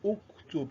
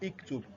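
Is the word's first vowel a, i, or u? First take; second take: u; i. First: The first vowel is u. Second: The first vowel is i. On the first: The speaker calls it right. "you pronounce it with what? With doma" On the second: The speaker calls it wrong. "is not iktub"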